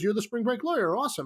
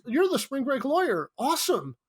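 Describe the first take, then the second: First: Said in the usual way. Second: High, mock-enthusiastic frat bro; frat boy line. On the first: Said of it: "runs up to him and says". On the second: Actor running his frat boy line, high mock enthusiasm. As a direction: read the line like a dumb cheerful fan. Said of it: "Wait, my line is".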